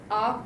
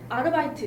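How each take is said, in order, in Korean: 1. 독일어식으로 말했어요. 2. 한국어 외래어식으로 말했어요. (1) "독일어는 아바이트예요" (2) "우리는 막 어, 아르바이트 있잖아요"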